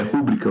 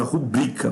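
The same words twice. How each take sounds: First: "rúbrica" stressed on the first syllable, RÚ; wrong stress RÚbrica. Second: "rubrica" stressed on the middle syllable, BRI; correct stress ruBRIca. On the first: Teacher showing what not to say, RÚbrica stressed first. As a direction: say "rúbrica" with the beat up front. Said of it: "Você não fala". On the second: Teacher showing how to say it, ruBRIca stressed mid-word. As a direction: put the beat on BRI in "rubrica". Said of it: "você fala rubrica". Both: Shown as a demonstration.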